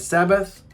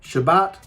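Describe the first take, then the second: First: It begins with s and ends with th. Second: It begins with sh and ends with t. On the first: This is how Christians say it. "Why don't we say Sabbath like the Christians do?"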